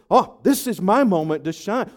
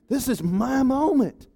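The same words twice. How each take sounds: First: Said in the usual way. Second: Higher, slow and savouring; gloating Haman. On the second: Acted. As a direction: draw out the words like a proud man. Haman savouring his moment.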